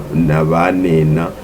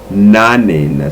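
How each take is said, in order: First: The middle syllable 'ba' is pronounced. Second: The middle syllable 'ba' is dropped. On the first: "if I say na navanena" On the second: "most people when you they're talking they say nanena, so the the ba doesn't really uh, exist"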